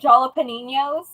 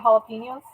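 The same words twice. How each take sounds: First: It is said with a heavy English accent. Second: It is said with a Spanish accent. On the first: It is mispronounced on purpose as a joke. The speaker calls it wrong. "sometimes I'll say it like really bad on purpose" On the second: It is the intended pronunciation. The speaker calls it right. "even though I can say it right"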